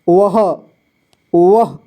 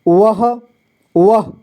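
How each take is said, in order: The two takes are said the same way.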